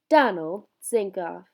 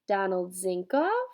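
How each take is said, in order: First: The voice falls at the end. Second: The voice rises at the end.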